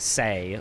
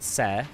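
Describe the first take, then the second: First: The vowel glides like English 'say'. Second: The vowel is a short plain 'eh'. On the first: The speaker calls it wrong. "some people say say, which is wrong" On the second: The speaker calls it right. "but Se"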